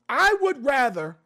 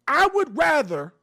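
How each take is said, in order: Both takes have the same delivery.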